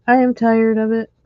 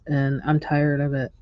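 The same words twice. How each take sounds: First: "I am tired of it" with "I" pitched high and loud; stress on I. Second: Said in the usual way. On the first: Real, not acted. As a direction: hit the I hard. Repeats line, second louder.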